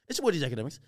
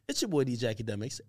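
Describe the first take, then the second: First: It is said fast. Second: It is said slowly.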